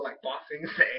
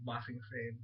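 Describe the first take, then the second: First: Said in the usual way. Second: Ba Sing Se said much softer as an aside; quiet correction. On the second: Shown as a demonstration. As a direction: mutter Ba Sing Se as a correcting afterthought. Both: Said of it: "No, no, just kidding".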